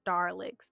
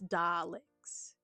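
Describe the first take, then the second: First: The first syllable is 'dar' with an R sound. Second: The first syllable is 'dah' with a clear L. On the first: The speaker calls it wrong. "not Darlix" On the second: The speaker calls it right. "it's it's Daleks"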